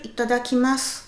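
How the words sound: It is said small and respectfully. "un tout petit respectueux"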